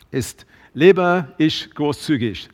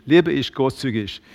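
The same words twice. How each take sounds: First: Slow, weighty question to the church; slow searching question. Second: Said in the usual way. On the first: Shown as a demonstration. Preacher asking the congregation the last question slowly. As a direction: let each word land slowly. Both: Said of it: "Und die letzte Frage".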